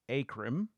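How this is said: It is said with a Midwestern American pronunciation.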